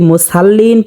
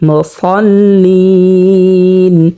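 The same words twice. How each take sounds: First: The first consonant is pronounced light and thin. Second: The first consonant is pronounced heavy and thick. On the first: The speaker calls it wrong. "এখানে যদি মুসাল্লিন পড়া হয় তাহলে শুদ্ধ হবে না" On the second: The speaker calls it right. "মোটা করে পড়তে হবে।"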